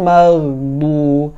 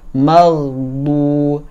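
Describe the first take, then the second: No difference in how they are said.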